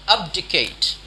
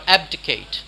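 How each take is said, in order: First: "Abdicate" with an open "ahb" first syllable; thick-accent pronunciation. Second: "abdicate" with a short-a "ab" first syllable; standard pronunciation. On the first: Teacher showing learners a variant, "Abdicate" as AHB-dih-kate. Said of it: "thick accent we, which might say". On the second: Teacher giving learners the alternative, "abdicate" as AB-dih-kate. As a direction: say "abdicate" with the a of "cat". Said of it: "How do you say abdicate?". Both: Shown as a demonstration.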